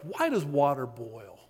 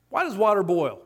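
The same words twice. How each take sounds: First: Half-hearted Irish accent, softly voiced; John Lennox. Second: Said in the usual way. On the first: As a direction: attempt a grandfatherly Irish accent, badly faked. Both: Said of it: "I can't do an Irish accent".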